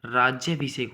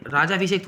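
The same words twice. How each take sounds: First: राज्याभिषेक with 'jy' after the long raa; correct form. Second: राजाभिषेक with plain 'jaa', no y sound; wrong form. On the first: Teacher giving the right word, राज्याभिषेक with 'jy'. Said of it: "राज्याभिषेक होता है". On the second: Teacher rejecting a misspelling, राजाभिषेक with 'jaa'. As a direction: say राजाभिषेक with a long aa after j. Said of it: "राजाभिषेक थोड़ी होता है". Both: Shown as a demonstration.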